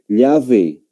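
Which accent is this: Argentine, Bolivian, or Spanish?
Spanish. It is said with a Spanish accent. "Un español... lo va a pronunciar llave"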